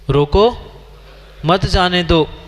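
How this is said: There is a pause after रोको.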